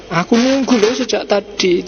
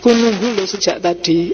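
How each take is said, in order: First: Higher-pitched, mildly cross complaint; reproachful demo of a text message; angry reading. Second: Mild, friendly "I've been waiting"; demonstrating a kindly read message; pleasant reading. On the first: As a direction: demonstrate reading it with annoyance. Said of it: "Itu bisa marah bacanya". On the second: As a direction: say it nicely, without reproach. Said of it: "Itu kan bisa enak". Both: Shown as a demonstration.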